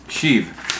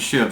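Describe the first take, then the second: First: The name is said as Sheev. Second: The name is said as Shiv. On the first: The speaker calls it right. "My last name is mispronounced Sheev" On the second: The speaker calls it wrong. "And I called him Shiv, so my apologies"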